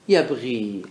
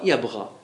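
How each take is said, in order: First: The vowel after the gh is 'i'. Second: The vowel after the gh is 'a'. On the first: The speaker calls it right. "اشتهرت عند العرب بالكسر" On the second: This form follows the guttural-letter rule. The speaker calls it wrong. "فكان المفروض نقول بغى يبغى"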